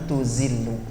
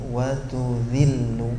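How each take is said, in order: First: The middle consonant is a buzzing 'z' sound. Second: The middle consonant is a soft 'th' sound. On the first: The speaker calls it wrong. "Itu zai jadinya" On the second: The speaker calls it right. "Kalau zal ujung lidah ketemu ujung gigi sari"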